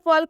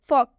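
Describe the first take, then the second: First: The L sound is pronounced before the K. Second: The L is silent, with no L sound. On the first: The speaker calls it wrong. "इसे भी हम फॉल्क नहीं पढ़ेंगे" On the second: The speaker calls it right. "इसे हम फॉक पढ़ेंगे"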